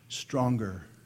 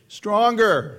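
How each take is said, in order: First: The word is said softly and quietly. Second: The word is said at moderate volume. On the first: It is only a private thought. "I was thinking" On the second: It is said aloud with some hesitation. "I need to say it a little bit louder"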